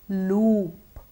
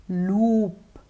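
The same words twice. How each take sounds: Both takes have the same delivery.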